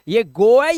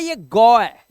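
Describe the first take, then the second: First: गो stretched with a rounded "oh"; long O sound. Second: गौ with an open "aw" vowel, loud; open O sound. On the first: Teacher contrasts vowels for students, गो with long "oh". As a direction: say गो like English "go", slowly and loud. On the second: Teacher contrasts vowels for students, गौ with open "aw". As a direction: say गौ as "gaw", opening the vowel. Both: Shown as a demonstration. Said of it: "ओ का उच्चारण होता है".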